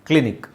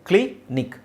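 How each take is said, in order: First: The two syllables run together without a break. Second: The two syllables are said apart with a break.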